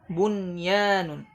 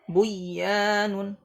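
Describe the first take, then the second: First: The n sound is pronounced clearly before y. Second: The n sound is merged into the y. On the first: The speaker calls it right. "tapi dibaca izhar" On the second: The speaker calls it wrong. "tidak dibaca buyanun"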